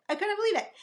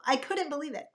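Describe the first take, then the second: First: Disbelief, pitched higher. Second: Said in the usual way. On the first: Real, not acted. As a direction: say it again much higher, amazed.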